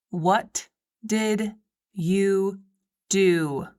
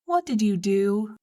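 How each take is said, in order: First: "What did you do?" dragged out very slowly, "did" stretched; slow stern question. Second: Said in the usual way. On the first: A narrator's reading. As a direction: press the question word by word. Asked again, drawn out.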